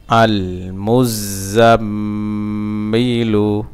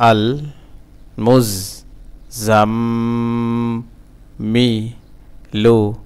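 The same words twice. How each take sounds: First: "আল মুজাম্মিলু" in one slow flow with a long hummed mm; joined reading pronunciation. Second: "আল মুজ জাম, মি, লু" in separate syllables, the m of "জাম" held; broken syllable-by-syllable. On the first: Teacher reading the word whole for learners, drawn out and joined. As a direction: connect "আল মুজাম্মিলু", lingering on the m. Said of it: "reading উচ্চারণ". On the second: Teacher breaking the word for learners, syllable by syllable. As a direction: sound out "আল মুজ জাম, মি, লু" piece by piece. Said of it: "ভাঙা ভাঙা". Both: Shown as a demonstration.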